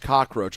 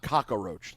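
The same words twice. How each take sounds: First: 'Cock' runs straight into 'roach'. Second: An extra vowel sound comes after 'cock'. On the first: The speaker calls it right. "the word is cockroach" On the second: The speaker calls it wrong. "the word is definitely not cockroach"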